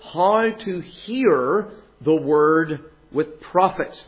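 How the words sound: The word hear carries the main stress. The focus is on the act of listening. "with the stress on hear"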